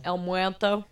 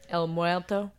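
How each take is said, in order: First: Spanish accent. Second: Rolled Spanish "El Muerto"; Spanish accent. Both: Shown as a demonstration. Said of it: "Yes, say that again".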